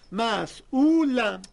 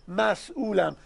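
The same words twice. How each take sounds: First: «مسئولم» slowly, mas... uulam; split and stretched. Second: «مسئولم» in two beats, mas-ulam; split in two. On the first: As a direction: drag out both parts of «مسئولم», stretching the second. («مسئولم» دو بخشی و خیلی کشیده) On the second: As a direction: say «مسئولم» as two separated parts. («مسئولم» دو بخشی، مس-ئولم) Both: Shown as a demonstration. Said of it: "دو بخشه".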